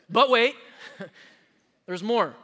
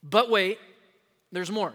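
First: Louder, punchier TV-pitch call; hammed-up late-night ad host; mock infomercial announcer with a laugh; infomercial line. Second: Mock TV pitch, hyped then dropped; a light infomercial-host voice; infomercial line. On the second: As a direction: sell it like a late-night ad. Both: Shown as a demonstration. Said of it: "You like those commercials?".

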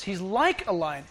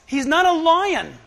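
First: He's LIKE a lion, like pressed; stress on like. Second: He's NOT a lion, slow, not leaned on; stress on not. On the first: Preacher stressing like for the congregation. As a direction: lean on the word like. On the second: Preacher correcting, stressing not a lion. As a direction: hit not slowly. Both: Shown as a demonstration. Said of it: "I love what the word says".

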